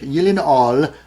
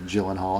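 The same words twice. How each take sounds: First: The name is pronounced the non-American way. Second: The name is pronounced the American way. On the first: "Got to say it uh, that way" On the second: "Some people call him Gyllenhaal, and that's fine as well, especially if you're here in America"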